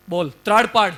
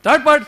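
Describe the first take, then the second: First: Said in the usual way. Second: Much higher and much louder, a roaring command; lion roar. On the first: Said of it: "જોરથી ત્રાડ પાડી". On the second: Acted. The lion roars its command at the frightened cub, much louder and higher. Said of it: "અને પછી જોરથી ત્રાડ પાડી".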